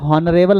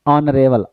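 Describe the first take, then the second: First: The word begins with an h sound. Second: The word begins with a vowel, no h. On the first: The speaker calls it wrong. "इसे हॉनरेबल नहीं पढ़ेंगे" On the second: The speaker calls it right. "अ पढ़ेंगे, हा नहीं पढ़ेंगे"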